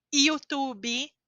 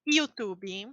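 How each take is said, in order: First: YouTube said iutubi, starting with ee. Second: YouTube said utubi. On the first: Teacher showing the Y in YouTube. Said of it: "A pronúncia dela em português é I". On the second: Teacher repeating YouTube the Brazilian way. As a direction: open YouTube with a short ee. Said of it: "nós chamamos de I". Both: Shown as a demonstration.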